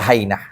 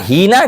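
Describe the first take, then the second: First: The first vowel is an 'ai' sound. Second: The first vowel is a long 'ee' sound. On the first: "Boleh fathah juga boleh" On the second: "bikasril ha"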